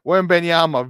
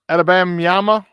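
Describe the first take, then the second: First: The name starts with a 'Wem' sound. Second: The name starts with an 'Ada' sound. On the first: The speaker calls it right. "Here it is" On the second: The speaker calls it wrong. "I knew I screwed it up"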